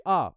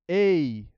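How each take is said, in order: First: "a" as a short, pure Spanish vowel. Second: "a" drawn out slowly, bent toward "ei"; English-style a. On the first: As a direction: say "a" open and clean with no glide. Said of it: "the a we say in Spanish". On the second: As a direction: stretch "a" into an English "ei" glide. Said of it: "they bend". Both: Shown as a demonstration.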